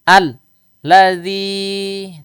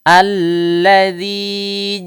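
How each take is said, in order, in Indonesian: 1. Ada jeda setelah al. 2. Kata ini lancar tanpa jeda. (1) "jangan kita putus, jangan al ladzi" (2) "tapi alladzi"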